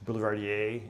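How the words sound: It is pronounced the French way.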